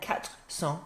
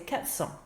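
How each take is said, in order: First: The r of quatre is pronounced before cents. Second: The r of quatre is dropped before cents. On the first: The speaker calls it wrong. "there's a gap in it" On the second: The speaker calls it right. "we knock off that r sound"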